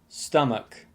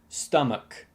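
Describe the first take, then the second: No difference in how they are said.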